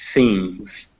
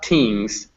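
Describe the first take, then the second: First: The word begins with a soft th sound. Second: The word begins with a hard t sound. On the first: The speaker calls it right. "but things" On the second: The speaker calls it wrong. "Not tings"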